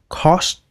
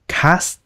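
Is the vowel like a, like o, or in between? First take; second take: like o; like a. First: The vowel sounds like a rounded o. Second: The vowel sounds like an open a. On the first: "cũng không phải là cost" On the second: "Không phải là cast"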